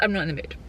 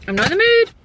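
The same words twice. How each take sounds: First: Said in the usual way. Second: Much higher, louder whine; hammed-up protest. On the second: Vlogger refusing the drive to Lidl, in mock protest. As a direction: repeat it as a mock tantrum, pitched way up.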